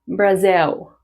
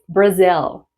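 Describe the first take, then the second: First: The word ends in a W-like oo sound. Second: The word ends in a clear L sound. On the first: The speaker calls it wrong. "It's not Brazil. What? Oh, that's a W sound" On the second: The speaker calls it right. "It's Brazil"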